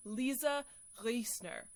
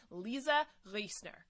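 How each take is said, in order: First: "Lisa Riesner" slowly, with a German guttural R; careful try at German "Riesner", slow and deliberate; German pronunciation. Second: "Lisa Riesner" with an English R and no German sounds; Americanized name. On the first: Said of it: "that beautiful guttural German accent". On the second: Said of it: "just say Lisa Riesner, like they say in the States". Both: Shown as a demonstration.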